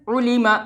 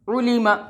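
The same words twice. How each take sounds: The two takes are said the same way.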